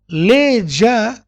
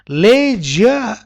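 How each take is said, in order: No difference in how they are said.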